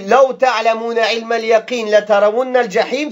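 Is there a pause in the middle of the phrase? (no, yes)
no. The two parts run together without a pause. Seeing hell depends on having certain knowledge. The speaker calls it wrong. "si on fait la liaison, ça change complètement le sens"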